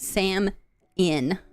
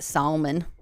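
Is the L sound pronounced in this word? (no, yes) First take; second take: no; yes. First: The word is said without any L sound. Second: The word is said with an audible L sound. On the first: "That's how I pronounce it" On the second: "why is there an L if they don't want me to say it?"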